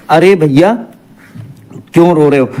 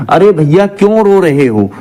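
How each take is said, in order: First: Long pause after "अरे भैया", then the question. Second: Said in the usual way. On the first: Shown as a demonstration. Teacher showing students where the vocative mark goes, long pause after "भैया". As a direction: break clearly between "भैया" and "क्यों". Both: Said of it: "के बाद आप ये लगाते हो".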